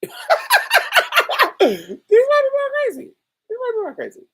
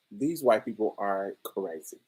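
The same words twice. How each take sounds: First: High, laughing through the words; laughing repeat. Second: Said in the usual way. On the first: Real, not acted. Repeating the joke to her listeners, laughing high. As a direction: let the laugh break over it.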